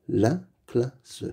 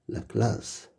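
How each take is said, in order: First: La classe split into la, cla, sse; syllable by syllable. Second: Said in the usual way. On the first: Shown as a demonstration. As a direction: sound out "La classe" with gaps between syllables. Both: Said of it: "Lis les mots".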